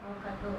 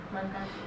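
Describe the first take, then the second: The two takes are said the same way.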